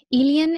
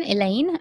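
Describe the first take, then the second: First: Slow "Elian", said as EE-lee-un; louder, drawn-out "Elian", rhyming with "alien"; imitated pronunciation. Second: Said in the usual way. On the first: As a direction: stretch "Elian" out in three syllables. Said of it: "but when you said it". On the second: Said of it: "that it spelled Elaine".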